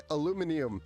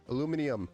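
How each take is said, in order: First: It is said the British way. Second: The same.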